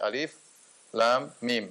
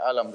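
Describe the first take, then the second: First: Each letter is named separately. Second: It is read as one joined word. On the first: The speaker calls it right. "tetapi dibaca alif lam mim" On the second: The speaker calls it wrong. "tidak dibaca alam"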